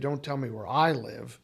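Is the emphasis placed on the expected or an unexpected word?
unexpected. The emphasis falls on an unexpected word. The speaker calls it wrong. "You wouldn't say"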